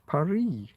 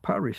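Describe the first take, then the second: First: The final S is silent. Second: The final S is pronounced. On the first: This is what the locals call it. "The French call Paris Paris" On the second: This is what English speakers call it. "because there's a fucking S on the end of the word"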